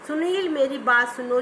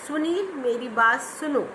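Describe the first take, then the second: First: It runs straight on without a pause. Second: A clear pause follows the phrase. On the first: The sentence is hard to understand quickly. The speaker calls it wrong. "अगर अब हम एक flow में पढ़ते जा रहे हैं" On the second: A punctuation mark separates the sentence. The speaker calls it right. "हम रुके, विराम चिन्ह लगाया।"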